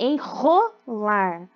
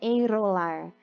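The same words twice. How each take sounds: First: The R is a strong, rough sound. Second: The R is a weak, tapped sound. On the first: The speaker calls it right. "É enrolar" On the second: The speaker calls it wrong. "não é um som fraco, não é enrolar"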